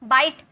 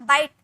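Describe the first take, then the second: The two takes are said the same way.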